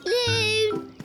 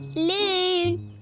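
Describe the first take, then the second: First: It is called louder. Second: It is called at a normal loudness.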